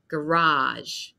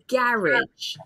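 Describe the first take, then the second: First: The stress falls on the last syllable. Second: The stress falls on the first syllable. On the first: This is the American pronunciation. "it will have the French stress at the end" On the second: This is the British pronunciation. "a lot of British English speakers say garage. So it's a different sound"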